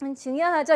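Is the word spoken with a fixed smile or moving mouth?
fixed smile. It is spoken through a fixed wide smile. The speaker calls it wrong. "웃는 모양으로 이 하고 웃을 수는 없어요"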